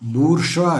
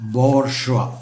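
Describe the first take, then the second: First: It starts with 'boor' and ends 'zhwa'. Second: It starts with 'bor' and ends 'zhwa'. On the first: The speaker calls it wrong. "ബൂർഷ്വ അല്ല" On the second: The speaker calls it right. "ഇതിൻ്റെ ശരിയായ ഉച്ചാരണം ബോർഷ്വ"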